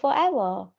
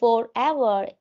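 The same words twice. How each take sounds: First: It is said faster with some sounds reduced. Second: Every syllable is pronounced fully and carefully. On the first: The speaker calls it right. "In here we say forever" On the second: The speaker calls it wrong. "India we say forever"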